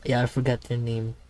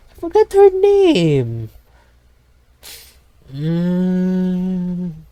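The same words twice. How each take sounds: First: Said in the usual way. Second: High, loud, slow squeak; cartoonish high-pitched whine; squeaky silly voice. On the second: Joke line in silly voice.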